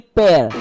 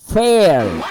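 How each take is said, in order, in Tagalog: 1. Nagsisimula ang salita sa tunog na p. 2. Nagsisimula ang salita sa tunog na f. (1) "hindi pair" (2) "Ayusin mo"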